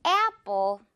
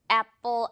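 First: Apple stretched to "eh-appo", mouth wide; rubber-band A. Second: Apple with short first vowel, "appo"; short plain A in apple; unstretched apple. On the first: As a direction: model apple with a long e-ah glide. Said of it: "입 크게 고무줄처럼". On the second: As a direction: say apple without the glide. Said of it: "apple 아니고요". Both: Shown as a demonstration.

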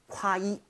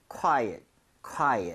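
First: "quiet" with a full, heavy "ot" ending; over-pronounced quiet. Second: "quiet" stressed early, ending closer to "at"; reduced ending in quiet. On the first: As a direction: overdo the second syllable of "quiet" as "ot". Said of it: "너무 quiet 하지 마세요". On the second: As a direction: lean on the first syllable of "quiet", relax the ending. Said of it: "ot보다도 at에 가깝게 오히려 발음이 될". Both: Shown as a demonstration.

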